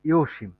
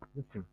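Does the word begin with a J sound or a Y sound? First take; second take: Y sound; J sound. First: The word begins with a Y sound. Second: The word begins with a J sound. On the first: The speaker calls it right. "কারণ ড এসে জ কোনো বর্ণমালা বা শব্দই নেই।" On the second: The speaker calls it wrong. "কিন্তু এটা ড এসে তো জসিম হবে না"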